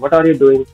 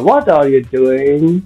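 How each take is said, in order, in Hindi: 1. यह आवाज़ चिढ़ी हुई और तीखी लगती है। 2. यह आवाज़ नरम और प्यार भरी लगती है। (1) "अब कुछ बार बार धक्का दे रहा है हमें" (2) "सिंपली अगर किसी नियर डियर से पूछना हो, छोटे बच्चे से खासकर"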